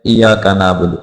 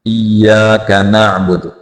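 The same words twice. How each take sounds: First: इय्याका said quickly with a single y, "iyaka"; casual, undoubled y in इय्याका; common mispronunciation. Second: इय्याका with a held, doubled y; careful doubled y in इय्याका; tashdeed on ya. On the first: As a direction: drop the doubling in इय्याका. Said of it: "लोग इसको पढ़ते हैं". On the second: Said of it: "या के ऊपर तशदीद है". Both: Shown as a demonstration.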